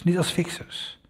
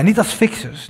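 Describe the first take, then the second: First: "niet als fixers" repeated much softer, stressing "niet"; quiet echo of "niet als fixers" with "niet" leaned on. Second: "Niet als fixers" higher and punched on "als"; emphatic "Niet als fixers" with "als" stressed. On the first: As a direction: let "niet als fixers" fall away softly. Repeated phrase, echoed softly. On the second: Repeated phrase, first take stressed. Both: Acted.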